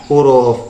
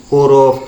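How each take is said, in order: The two takes are said the same way.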